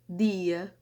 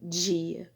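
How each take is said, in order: First: The d is a clean stop before i. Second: The d is hissy, like j, before i. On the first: This is the typical Northeastern pronunciation. "Um nordestino, um paraibano, por exemplo, falaria dia" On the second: This is the typical Rio de Janeiro pronunciation. "mas eu que sou carioca, eu falo dia"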